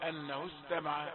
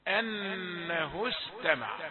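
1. لحرف السين صفير ضعيف فقط. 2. لحرف السين صفير قوي وواضح. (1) "نسمع بعض الناس يقرأ صفيرا ضعيفا" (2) "مع أنها تكون أقوى في حالة السكون"

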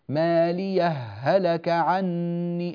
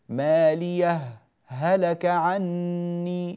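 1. تندمج الهاءان دون أي سكت. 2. سكت قصير بلا نفس يفصل بين الهاءين. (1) "هكذا الهاء في الهاء مدغمة" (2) "فنسكت بين الهاءين"

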